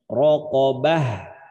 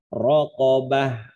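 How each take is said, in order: First: The word ends with an h sound. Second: The word ends with an h sound.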